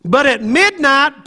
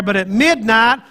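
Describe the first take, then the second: First: "midnight" lifted high and slow; raised climactic MIDNIGHT. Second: Said in the usual way. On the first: Shown as a demonstration. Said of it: "praying and singing hymns". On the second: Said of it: "Is that what your Bible says?".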